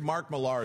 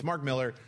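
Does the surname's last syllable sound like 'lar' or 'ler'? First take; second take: lar; ler. First: The last syllable sounds like 'lar'. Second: The last syllable sounds like 'ler'. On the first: The speaker calls it wrong. "I always say it wrong because of the way it's spelled" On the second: The speaker calls it right. "but it's Mark Miller"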